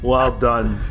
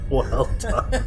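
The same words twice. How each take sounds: First: Said in the usual way. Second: Laughing. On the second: Real, not acted. Repeating a compliment, laughing.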